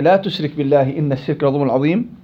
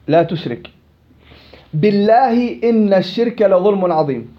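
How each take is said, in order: First: It runs on without a pause before billah. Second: It pauses after the second word, before billah. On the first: It forbids associating partners with God. The speaker calls it right. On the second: It sounds like an oath by God. The speaker calls it wrong.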